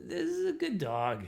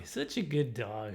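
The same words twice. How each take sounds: First: Dog praise. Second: Low, slow, soft praise; soft dog praise. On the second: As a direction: murmur fondly to a dog. Praising the dog again, softer. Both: Retold or imitated.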